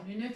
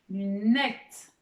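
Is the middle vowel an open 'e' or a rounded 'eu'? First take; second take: rounded eu; open e. First: The middle vowel is a rounded 'eu' sound. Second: The middle vowel is an open 'e' sound. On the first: It is not a real word. The speaker calls it wrong. "luneute, évidemment, ça n'existe pas" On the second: It is the real word for glasses. The speaker calls it right. "C'est le mot, en fait, le mot lunette"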